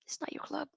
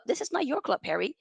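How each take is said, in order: First: Hushed, breathy whisper of the same line; pointed whisper aimed at Harry. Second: Said in the usual way. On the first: Real, not acted. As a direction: drop to a whisper to drive it home. Ranting at Maguire.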